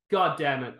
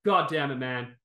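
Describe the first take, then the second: First: Loud, seething God damn it with God stressed; angry curse again. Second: Angry curse. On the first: Still fuming at the fighter, angry curse. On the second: Venting at the fight, furious curse. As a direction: spit out God damn it with the word God punched. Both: Real, not acted. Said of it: "I am still so angry".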